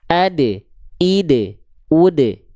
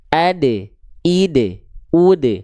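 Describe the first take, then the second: First: The d sound is released with an echoing bounce. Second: The same.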